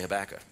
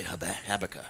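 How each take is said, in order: First: Habakkuk said the everyday way, stress on Hab-; Habakkuk, stress on the first syllable; common pronunciation. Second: Habakkuk said the educated way, stress on -bak-; Habakkuk, stressed on the middle syllable; educated pronunciation. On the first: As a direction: say Habakkuk plainly, folksy. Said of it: "otherwise, you say". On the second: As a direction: say Habakkuk carefully as the learned do. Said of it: "if you're educated, you say". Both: Shown as a demonstration.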